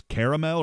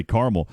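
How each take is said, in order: First: "caramel" as KARR-uh-mel; three-syllable caramel. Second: "caramel" as CAR-mul; two-syllable caramel. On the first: Host unsure of the correct form, "caramel" as KARR-uh-mel. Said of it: "I don't know if it's caramel". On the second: Host giving the way he always says it, "caramel" as CAR-mul. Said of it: "or I always say caramel". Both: Shown as a demonstration.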